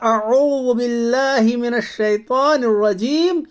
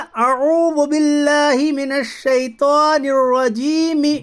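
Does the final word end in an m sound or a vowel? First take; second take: m sound; vowel. First: The last word ends on a bare m sound. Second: The last word ends with a short i vowel. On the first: The final vowel is dropped at the verse end. "लेकिन हमने पढ़ा ... मीम की ज़ेर हम खा गए" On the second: This is the form as it is written. "असल में यहां लिखा ... मीम ज़ेर मी लिखा है"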